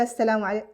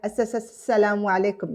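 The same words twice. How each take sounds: First: The s sound is said once. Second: The s sound is repeated twice.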